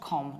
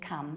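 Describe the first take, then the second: First: The vowel is the open 'o' of 'Tom'. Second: The vowel is the short 'uh' of 'come'. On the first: The speaker calls it wrong. "not com" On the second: The speaker calls it right. "we say come"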